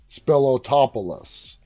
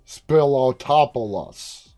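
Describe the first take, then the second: Both takes have the same delivery.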